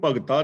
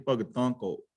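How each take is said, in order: First: "ਭਗਤਾ" with a plain oral final vowel; misreading without nasal. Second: "ਭਗਤਾਂ" with a nasal final aa; nasalised ending. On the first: Preacher showing listeners the misreading, "ਭਗਤਾ" without the nasal ending. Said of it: "ਇਹਨੂੰ ਭਗਤਾ ਨਹੀਂ ਪੜ੍ਹਨਾ". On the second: Preacher correcting how scripture is read, "ਭਗਤਾਂ" with a nasalised ending. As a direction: let the last vowel of "ਭਗਤਾਂ" go through the nose. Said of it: "ਬਿੰਦੀ ਲਗਾ ਕੇ". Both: Shown as a demonstration.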